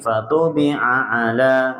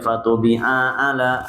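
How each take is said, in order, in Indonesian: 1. Vokal pada 'la' dibaca panjang. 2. Vokal pada 'la' pendek. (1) "panjang di la-nya" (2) "sehingga tidak"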